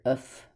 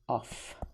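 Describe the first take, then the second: First: The vowel is a reduced 'uh' sound. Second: The vowel is a small 'ah' sound. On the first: The speaker calls it wrong. "we're not going to hear uf" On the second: The speaker calls it right. "You always will hear a little tiny ah"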